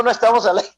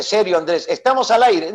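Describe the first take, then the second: First: Light retold denial; a touch of brushing it off; denying. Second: Mildly urgent retold warning; a touch of urgency, insisting; serious warning. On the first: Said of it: "le digo". (negación ligera, casi normal) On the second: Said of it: "me dice". (advertencia seria, apenas marcada)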